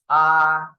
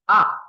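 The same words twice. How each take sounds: First: The pitch stays high and level. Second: The pitch falls sharply from high to low. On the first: "The first tone is R" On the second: "And fourth tone is R"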